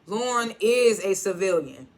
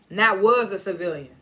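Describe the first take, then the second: First: "is" leaned on, slow; stress on is. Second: "was" pushed, loud; stress on was. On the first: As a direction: slowly hit "is" in "Lauren is a civilian". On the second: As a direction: hit "was" in "Not was a civilian". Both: Retold or imitated. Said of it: "instead of".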